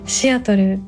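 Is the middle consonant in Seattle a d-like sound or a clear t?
clear t. It is said with a clear t sound.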